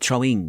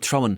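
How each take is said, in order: First: The ending is said as 'ing' with the g. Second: The ending is said as 'in' without the g. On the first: The speaker educated himself out of the local way of talking. "I would throwing, throwing" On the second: This is how the normal Dubliner talks. "I don't say in, in like uh, I'm throwing"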